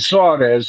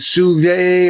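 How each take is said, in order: First: The name ends with a 'z' sound. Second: The name ends with a vowel sound. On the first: The speaker calls it wrong. "we're mispronouncing Suarez" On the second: The speaker calls it right. "it comes off as Suve or Suvi or something like that, French"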